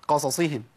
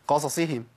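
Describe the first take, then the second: The two takes are said the same way.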